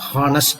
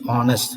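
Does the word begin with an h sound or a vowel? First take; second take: h sound; vowel. First: The word begins with an h sound. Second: The word begins with a vowel sound. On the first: The speaker calls it wrong. "not honest அப்படி சொல்லக்கூடாது" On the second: The speaker calls it right. "the sound by which you are pronouncing that particular word is honest"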